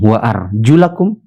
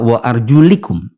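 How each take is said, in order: First: The vowel after the L is A. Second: The vowel after the L is I. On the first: The feet are washed, as an object. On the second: The feet are wiped.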